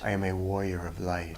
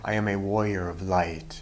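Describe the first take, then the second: First: It is said at normal volume. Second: It is said loudly.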